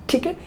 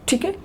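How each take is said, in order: No difference in how they are said.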